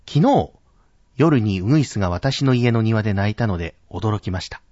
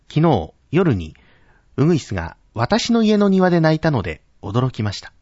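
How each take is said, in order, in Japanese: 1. 「昨日」は高く、強く発音されている。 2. 「私の家の庭」は高く、強く発音されている。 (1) "このように昨日というところを高く発音する" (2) "私の家の庭、ここに主眼を置いて読んだ場合"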